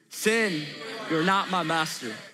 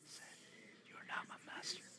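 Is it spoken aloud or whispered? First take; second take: aloud; whispered. First: It is spoken in a full voice. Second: It is spoken in a whisper.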